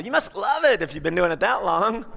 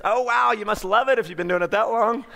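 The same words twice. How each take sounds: First: Love given extra weight and lift; stress on love. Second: Love leaned on a little, the rest easy; stress on love. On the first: Speaker showing the hook to the audience, stressing love. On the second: Salesman chatting up a worker, stressing love. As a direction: lean on the word love, friendly and upbeat. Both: Shown as a demonstration. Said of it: "I kinda emphasize love".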